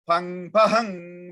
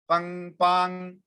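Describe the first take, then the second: First: The second syllable is drawn out with an echo. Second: The second syllable is short and plain. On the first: The seed sound comes alive with energy. The speaker calls it right. "When we are trying pang pahang" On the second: The seed sound lacks its energizing effect. The speaker calls it wrong. "if I just do pang pang ping ping, it doesn't have that same effect"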